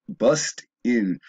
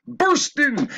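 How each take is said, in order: First: Said in the usual way. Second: "burst in" belted out high, slow and loud; emphatic self-correction. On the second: Real, not acted. Speaker finally getting "burst in" out after stumbling, loud emphatic correction. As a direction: hit "burst in" hard, drawing out the corrected word.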